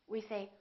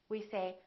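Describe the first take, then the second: The two takes are said the same way.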